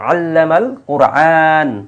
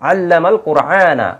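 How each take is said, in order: First: The last word ends without its final vowel. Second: The last word ends with a final 'a' vowel. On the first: The reader stops at the end of the verse. "সে ওয়াকফ করার কারণে আমরা কি পড়ি" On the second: The word carries its object ending. "কিন্তু কোরআনা শব্দটা মন ছিল কোরআনা"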